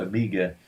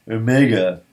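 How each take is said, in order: First: "omega" as oh-MEE-ga, softer; omega pronounced with MEE. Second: "omega" as oh-MAY-ga; omega pronounced with MAY. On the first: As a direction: offer "omega" with a long ee in the middle. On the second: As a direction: stress and lengthen the middle of "omega". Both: Shown as a demonstration. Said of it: "or omega".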